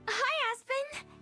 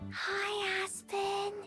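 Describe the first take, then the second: First: It is said loudly. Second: It is said quietly.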